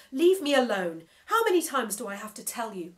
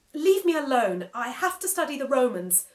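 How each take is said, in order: First: Louder, rushed exasperated outburst; cutting him off. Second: Louder, higher fed-up yell. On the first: Boy cutting off the nagging screen mouth, exasperated. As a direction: cut in fast and fed up. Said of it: "I cut him off". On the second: Boy yelling at the talking screen to leave him alone. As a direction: shove him away with your voice. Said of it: "I yelled at him". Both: Acted.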